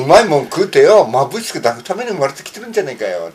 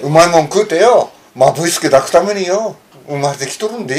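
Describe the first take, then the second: First: Lightly voiced Hiroshima yakuza line, the dialect carrying it more than the voice; a casual Hiroshima-dialect recital of a gangster film line; Hiroshima-dialect movie quote. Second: The retake of the Hiroshima-dialect film line, said clearly into the mic but still lightly voiced; Hiroshima dialect again. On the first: Asked to recite a favourite yakuza film line, a mild Hiroshima dialect quote. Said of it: "広島弁でな". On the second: Asked to repeat it in front of the mic, a careful Hiroshima-dialect recital. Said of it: "ちょっとこれ、広島弁".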